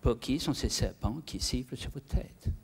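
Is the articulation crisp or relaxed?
relaxed. The jaw is loose, giving slack English-like sounds. "Un Anglais, au contraire, va complètement décontracter sa mâchoire inférieure"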